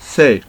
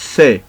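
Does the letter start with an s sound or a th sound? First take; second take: th sound; th sound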